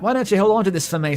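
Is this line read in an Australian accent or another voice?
Australian. It is read in an attempted Australian accent. "I can't do an Australian accent"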